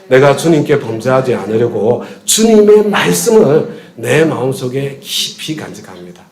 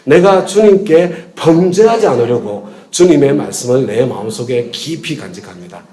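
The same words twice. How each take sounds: First: The stress is on 주님의 말씀을. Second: The stress is on 범죄하지 않으려고.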